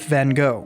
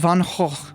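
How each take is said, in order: First: The name gets a familiar English pronunciation. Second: The name gets its native pronunciation. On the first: This is the habitual pronunciation the speaker keeps using. "I'm just going to stick with Van Gogh" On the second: This is how the name is really pronounced. "you guys are also mispronouncing his name. It's Van Gogh"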